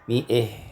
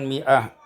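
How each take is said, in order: First: The final vowel leans toward e. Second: The final vowel is an open a. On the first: "hamzah dan ha ketika waqaf" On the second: "imalatu fathati"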